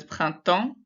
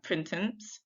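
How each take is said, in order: First: Printemps with nasal vowels, silent P and S; correct French pronunciation. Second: Printemps read as English "print-emps", final consonants sounded; softer throwaway printemps, spelled-out P and S audible; wrong anglicised pronunciation. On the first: Teacher correcting for pupils, printemps in French with silent ending. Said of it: "we don't say the P or the S". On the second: Teacher showing the mistake, printemps with every letter sounded. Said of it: "that doesn't sound like". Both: Shown as a demonstration.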